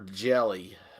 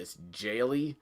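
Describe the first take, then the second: First: The first syllable sounds like 'jell'. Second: The first syllable sounds like 'jail'. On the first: The speaker calls it wrong. "I guess I forgot to pronounce the I" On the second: The speaker calls it right.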